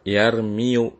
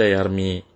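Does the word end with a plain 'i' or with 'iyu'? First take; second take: iyu; plain i. First: The word ends with an added 'yu' sound. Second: The word ends with a plain 'i' sound. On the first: The speaker calls it wrong. "tidak yarmiu ya, karena ini e, berat ya" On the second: The speaker calls it right. "kita baca yarmi"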